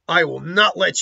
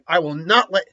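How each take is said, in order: First: The character voice is put on more strongly. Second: The character voice is only weakly put on. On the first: The speaker calls it right. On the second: The speaker calls it wrong.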